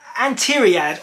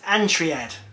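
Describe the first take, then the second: First: The name has a 'tee' syllable after 'Ant'. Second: The name goes straight from 'Ant' to 'tri'. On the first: The speaker calls it right. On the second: The speaker calls it wrong.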